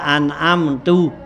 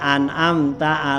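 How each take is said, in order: First: The word ends with a u vowel. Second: The word ends with an a vowel.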